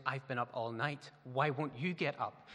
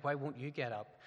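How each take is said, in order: First: "you" pushed hard to throw the question back; tired wife's mild retort, leaning on "you"; stress on YOU. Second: "Why" leaned on as a grumbling inner question; a tired husband's mild grumble, hitting "Why"; stress on WHY. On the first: Wife throws question back at husband, stress on "you". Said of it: "she looks back at me and goes". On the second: Husband grumbles at wife about getting up, stress on "Why". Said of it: "I look at Lindsay and I think". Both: Retold or imitated.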